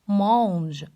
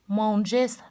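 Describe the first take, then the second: First: The word ends without an S sound. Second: The word ends with an audible S sound. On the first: The speaker calls it right. "mais prononcer mange" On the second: The speaker calls it wrong. "Pas prononcer les sons S, manges, non"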